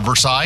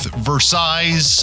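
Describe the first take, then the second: First: The S sound is silent. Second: The S sound is pronounced.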